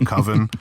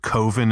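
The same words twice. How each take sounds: First: The first vowel sounds like the vowel in 'love'. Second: The first vowel sounds like the vowel in 'go'. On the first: This is the usual pronunciation. The speaker calls it right. "instead of coven" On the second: This is how someone else mispronounces it. The speaker calls it wrong. "He always calls it coven"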